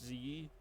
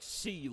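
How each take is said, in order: First: The word begins with a buzzing z sound. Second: The word begins with a hissing s sound. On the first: The speaker calls it right. "the S sound is more of a Z, so it's like das Z" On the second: The speaker calls it wrong. "It's not like C like English"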